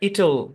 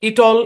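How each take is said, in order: First: The word is pronounced in a natural, smooth way. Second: The word is pronounced in a stiff, unnatural way. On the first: The speaker calls it right. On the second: The speaker calls it wrong.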